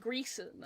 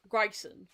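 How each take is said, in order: First: The first vowel sounds like 'ee'. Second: The first vowel sounds like 'eye'. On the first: Experts in the field say it this way. "they were saying Greason" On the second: It is read straight from the spelling. "my brain just immediately goes Gryson because it's an I, not an E"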